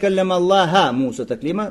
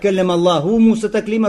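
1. Слово Аллах заканчивается на гласный a. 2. Слово Аллах заканчивается на гласный u. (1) "Замени что «дамму» на «фатху»" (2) "разговаривал Аллах с Мусой"

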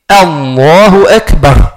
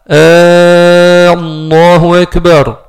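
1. La voyelle au début reste brève. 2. La voyelle au début est longue, prolongée. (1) "Donc, on dit Allahu Akbar" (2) "on prolonge le dans l'offre al-Jalala"

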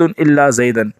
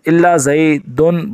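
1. آخری لفظ 'an' کی آواز پر ختم ہوتا ہے۔ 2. آخری لفظ 'un' کی آواز پر ختم ہوتا ہے۔ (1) "منصوب" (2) "بطور بدل مرفوع ہے"

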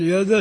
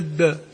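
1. صوت الدال الأخيرة قصير. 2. صوت الدال الأخيرة مشدد. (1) "بدل يد" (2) "شدد الدال على غير الأصل"

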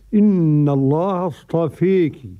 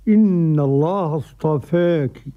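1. الحركة الأخيرة تميل بشدة نحو 'ee'. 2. الحركة الأخيرة تميل قليلاً نحو 'e'. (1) "بالإمالة الكبرى" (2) "والتقليل"

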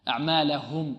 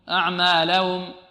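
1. الهاء قرب النهاية يُضغط عليها بوضوح. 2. صوت الهاء قرب النهاية ضعيف. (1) "لابد أن تضغط على الهاء" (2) "لعل بعض الطلاب يقول"

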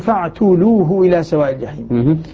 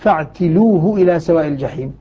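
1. التاء بعدها ضمة. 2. التاء بعدها كسرة. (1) "الباقون بالضم" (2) "التاء يكسرها المرموز لهم بالغين وهم الكوفيون وأبو عمرو"

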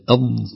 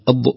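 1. تنتهي الضاد بسلاسة دون قلقلة. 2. تنتهي الضاد بقلقلة واضحة مسموعة. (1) "والأرض هكذا أض" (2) "أما أض هذا قلقلة"

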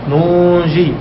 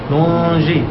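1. تبقى النون أنفية قبل الجيم. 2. تبقى النون أنفية قبل الجيم.

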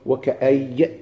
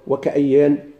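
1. الكلمة تنتهي بدون صوت النون. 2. الكلمة تنتهي بصوت النون. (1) "لمش يوقف بحذف التنوين يقول" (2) "الذي يوقف بالتنوين بالنون مش يقول"

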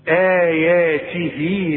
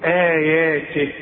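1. الكلمة تنتهي بحركة ممدودة. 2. الكلمة تنتهي بحركة غير ممدودة. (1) "إذا وصلت تمدها برضو مد طبيعي حركتين" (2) "لكن يلغى هذا المد عند الوقت، تقول آياته"

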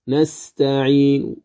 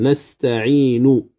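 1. تُنطق الحركة الأخيرة بالروم، أي أثر خفيف منها. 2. تُنطق الحركة الأخيرة كاملة وواضحة. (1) "مع إضعاف الصوت بالحركة نأتي بثلث" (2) "نطقي بها كامل"

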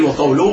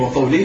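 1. الحركة الإعرابية قبل اللاحقة هي ضمة. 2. الحركة الإعرابية قبل اللاحقة هي كسرة. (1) "بالرفع" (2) "بالخفض"

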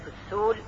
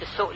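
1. لا توجد همزة في الكلمة، بل مد طويل. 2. في الكلمة همزة في الوسط.

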